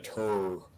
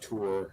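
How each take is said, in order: First: The word has a Montana regional vowel. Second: The word has a standard, non-regional vowel. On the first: "that's how you say it in Montana" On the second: "It's not tour"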